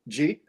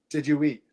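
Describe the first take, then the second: First: The words are squeezed into one syllable. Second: Each of the three words is said separately.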